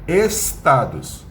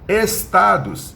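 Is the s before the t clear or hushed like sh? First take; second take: clear; clear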